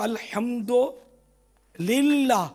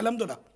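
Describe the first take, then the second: First: It is said slowly with a slight break inside. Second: It is said quickly, run together without a break. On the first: The speaker calls it right. "थोड़ा रुक के बोले ना, इतनी स्पीड से बोलते हैं इसलिए गड़बड़ हो जाती है।" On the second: The speaker calls it wrong. "ये अमूमन निकलता है"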